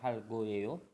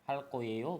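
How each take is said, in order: First: The second word starts with a plain consonant. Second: The second word starts with a tense consonant. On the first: The speaker calls it wrong. "bukan hal goeo" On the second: The speaker calls it right. "Jadi dibacanya hal koeo"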